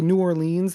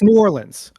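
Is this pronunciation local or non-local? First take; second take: non-local; local. First: It is pronounced the way outsiders say it. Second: It is pronounced the way locals say it. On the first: The speaker is not from the city. The speaker calls it wrong. "that's when we know you're not local" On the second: The speaker is from the city. The speaker calls it right. "It's New Orleans"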